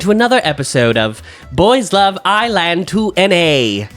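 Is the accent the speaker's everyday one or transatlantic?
transatlantic. It is said in a put-on transatlantic accent.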